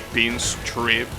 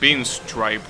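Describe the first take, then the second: First: The last syllable has a short 'i' sound. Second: The last syllable has a long 'i' sound. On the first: The speaker calls it wrong. "you could say pinstrip instead of stripe, but that doesn't sound right" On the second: The speaker calls it right. "you pronounce it pinstripe, right?"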